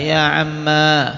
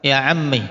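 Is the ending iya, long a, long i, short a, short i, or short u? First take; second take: long a; short i. First: The word ends in a long a vowel. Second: The word ends in a short i vowel. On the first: "alifnya tetap dibaca" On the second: "dengan mengkasrah akhirnya dan menghilangkan ya-nya"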